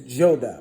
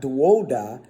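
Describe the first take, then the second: First: The middle letter is sounded as an oh vowel. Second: The middle letter is sounded as a W consonant. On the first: The speaker calls it right. "it's joda. It's pronounced joda. See that oh oh" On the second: The speaker calls it wrong. "this is not duoda"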